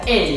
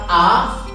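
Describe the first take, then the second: First: The letter is said with an ay vowel. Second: The letter is said with a plain ah vowel. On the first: "huruf A akan dibaca A" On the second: "dalam bahasa Indonesia kita A"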